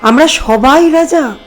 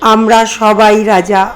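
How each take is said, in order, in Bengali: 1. এটি অবাক, বিস্মিত সুরে পড়া হচ্ছে। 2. এটি দুঃখী, বিষণ্ণ সুরে পড়া হচ্ছে। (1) "সারপ্রাইজ বিস্ময়ের সঙ্গে পড়েন" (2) "দুঃখের সাথে পড়েন"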